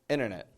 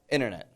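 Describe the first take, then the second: First: The N is said very quickly. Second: The same.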